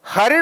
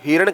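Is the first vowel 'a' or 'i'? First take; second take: a; i. First: The first syllable has an a vowel. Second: The first syllable has an i vowel. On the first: The speaker calls it right. "हरिण होता है" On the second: The speaker calls it wrong. "हिरण कह देते हो"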